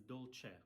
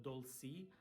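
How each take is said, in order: First: "dolce" said as "dol-cheh"; correct Italian pronunciation. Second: "dolci" said as "dol-see"; wrong pronunciation. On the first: Teacher correcting the word, "dolce" said "dol-cheh". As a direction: say "dolce" with ch and an eh ending. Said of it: "it's dolce". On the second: Teacher showing the mistake, "dolci" said "dol-see". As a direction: say "dolci" with an s sound and ee ending. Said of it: "It's not dolci". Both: Shown as a demonstration.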